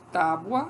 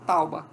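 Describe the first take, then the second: First: The u sound comes after the b. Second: The u sound comes before the b. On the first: "em vez de tábua" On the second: "as pessoas falam tauba"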